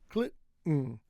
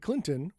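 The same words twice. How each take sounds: First: The middle T is held back and not released. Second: The middle T is fully released. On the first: "half T" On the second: "with a strong T"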